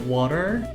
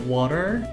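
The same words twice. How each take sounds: First: It is said in an American accent. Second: The same.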